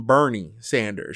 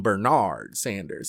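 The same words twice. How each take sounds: First: Said in the usual way. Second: Bernard, stressed on the second syllable; name said formally. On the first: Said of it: "she doesn't call him". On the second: Retold or imitated. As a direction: say Bernard in full, leaning on NARD. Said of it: "She calls him Bernard Sanders".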